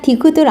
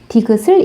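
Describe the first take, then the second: First: The final d sound carries over unchanged into the ending. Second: The final consonant does not carry over as d. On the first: "디귿 그대로 올라가서 정말 디귿을" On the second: "현실 발음으로 어떻게 사용하고 있죠? 디귿을 이라고 사용하고 있죠?"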